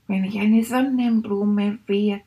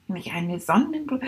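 First: Said in the usual way. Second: Unvoiced whisper of a daydream; whispered thought. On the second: Shown as a demonstration. Rat whispering its sunflower daydream. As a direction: breathe it like a secret thought. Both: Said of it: "hab ich gedacht".

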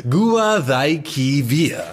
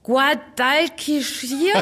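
First: Says Guadalquivir slowly, the Spanish way; correct Spanish. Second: Slow, unsure try at Guadalquivir; puzzled attempt. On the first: Acted. Luis gently corrects Anna, slow Spanish pronunciation. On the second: Anna, puzzled, tries the river name slowly. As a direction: stumbles over Guadalquivir slowly, as a German speaker. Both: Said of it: "Wie? Guadalquivir?".

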